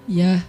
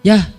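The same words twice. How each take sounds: First: The reply sounds friendly and soft. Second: The reply sounds harsh and curt.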